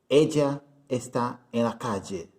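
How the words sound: The 'll' sounds like a 'zh' sound. "é comum você ouvir um argentino dizer"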